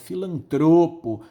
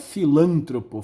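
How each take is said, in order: First: The stress is on the second-to-last syllable. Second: The stress is on the third-to-last syllable. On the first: The speaker calls it right. "é filantropo, é uma palavra paroxítona" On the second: The speaker calls it wrong. "não é filântropo"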